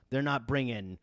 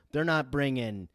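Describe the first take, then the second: No difference in how they are said.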